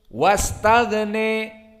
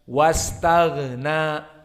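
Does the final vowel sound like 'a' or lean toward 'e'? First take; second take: e; a. First: The final vowel leans toward an 'e' sound. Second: The final vowel is an open 'a' sound. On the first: This is a single reciter's minority reading. "Imalah al-kubra cenderung kepada kasroh" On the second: This is the majority reading. "mereka membaca fathah"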